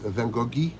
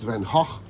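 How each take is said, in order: First: The name is pronounced the French way. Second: The name is pronounced the Dutch way. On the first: "in France, it's Van Goghi" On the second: "in where he was born, in Zundert, it's Van Gogh"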